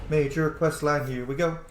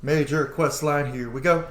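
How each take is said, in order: Both takes have the same delivery.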